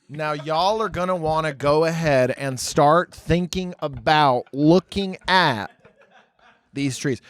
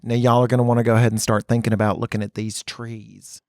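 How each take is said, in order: First: Slow, deliberate, long-winded Southern guide; drawn-out Southern preamble. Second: Lower, running Southern guide patter; Southern preamble. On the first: Southern guide preambling to tourists, slow drawn-out delivery. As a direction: stretch every phrase, pausing before the last words. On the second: Southern guide introducing trees to tourists, long-winded Southern accent. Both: Retold or imitated. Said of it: "they preamble what they're saying so much".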